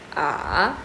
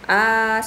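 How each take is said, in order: First: The pitch dips low then rises. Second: The pitch stays high and level. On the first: "Nada tiga turun naik ... diayun" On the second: "seperti orang menyanyi"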